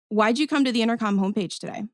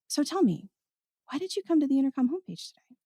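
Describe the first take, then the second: First: The tone is neutral and flat. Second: The tone is soft and inviting.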